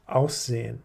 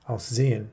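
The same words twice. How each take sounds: First: AUSsehen, first syllable AUS hit hardest; stress on AUS. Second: AusSEHEN, weight wrongly on the stem sehen; stress on SEHEN. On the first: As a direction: punch the prefix in aussehen, let sehen fall away. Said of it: "The aus is the element of the verb that is stressed". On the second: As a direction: aussehen with aus light and SE hit hard. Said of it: "not aussehen". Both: Shown as a demonstration.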